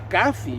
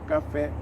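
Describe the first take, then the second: First: The stress falls on the first syllable. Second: The stress falls on the last syllable. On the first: The speaker calls it wrong. "se eu quiser viver sem a regra" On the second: The speaker calls it right. "toda palavra oxítona, né, terminada em vogal, deve ser acentuada"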